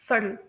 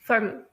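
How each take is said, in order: First: The middle consonant sounds softly like a d. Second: The same.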